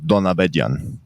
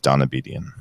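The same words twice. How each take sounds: First: The name is said with an Armenian pronunciation. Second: The name is said with an Americanized pronunciation. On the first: "The Armenian pronunciation is" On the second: "I just tell Americans"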